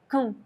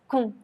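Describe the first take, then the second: First: The vowel is reduced to a weak u. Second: The same.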